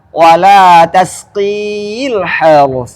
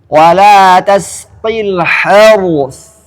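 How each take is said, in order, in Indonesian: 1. Vokal di akhir tasqi dipanjangkan. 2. Vokal di akhir tasqi pendek. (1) "Enggak boleh" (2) "iya-nya terbuang dalam bacaan"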